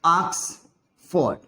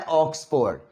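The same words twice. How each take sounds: First: ऑक्सफोर्ड slow, with an open aa sound, Aaksford; correct pronunciation. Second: ऑक्सफोर्ड with a plain o, Hindi style; wrong Indian pronunciation. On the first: Teacher demonstrating the right way to students, slowly. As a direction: stretch out ऑक्सफोर्ड with a broad aa. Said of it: "ऑक्सफोर्ड को ना ऐसे लिखते हैं". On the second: Teacher showing students the common wrong way. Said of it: "ये ऑक्सफोर्ड नहीं होता है". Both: Shown as a demonstration.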